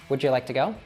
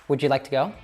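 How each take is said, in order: Both takes have the same delivery.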